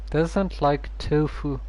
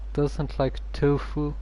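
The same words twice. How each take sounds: The two takes are said the same way.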